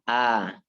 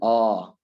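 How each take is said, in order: First: A thin, bright vowel with spread lips. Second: A thick, rounded vowel close to o. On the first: The speaker calls it right. "Rahangnya ditarik seperti tersenyum. Jadi bilangnya A" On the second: The speaker calls it wrong. "bukan O"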